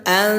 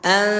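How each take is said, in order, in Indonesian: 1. Vokalnya terbuka dan tipis, seperti 'a'. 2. Vokalnya terbuka dan tipis, seperti 'a'.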